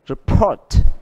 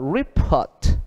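First: The stress is on the second syllable. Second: The stress is on the first syllable.

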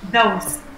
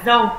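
First: The word ends with a clear s sound. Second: The word ends with no s sound. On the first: The speaker calls it right. "từ s mình phải đọc rõ ra như là those" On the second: The speaker calls it wrong. "chứ không phải là dâu"

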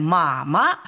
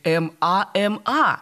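First: The word is said as two syllables. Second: Each letter is sounded out separately. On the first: The speaker calls it right. "а мы читаем" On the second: The speaker calls it wrong. "Если бы мы произносили эти буквы так, то и читать мы должны были"

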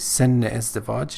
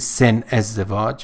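First: The words are joined by a linking -e vowel. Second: The words are said with no linking vowel. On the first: The speaker calls it right. "we say sen ezdevaj" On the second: The speaker calls it wrong. "We don't say sen ezdevaj"

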